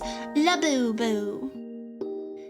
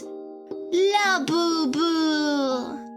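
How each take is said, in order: First: It is said in a British accent. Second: It is said in a Hungarian accent. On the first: "some British chick who lives in Florida" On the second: "the ninety-seven year old Hungarian grandmother that goes"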